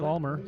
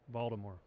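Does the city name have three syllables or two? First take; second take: two; three. First: The name is squeezed into two syllables. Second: The name has three syllables, with a soft D. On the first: This is the heavy local way some people say it. "some of them even say Balmer" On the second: This is the proper local way to say it. "Definitely no T"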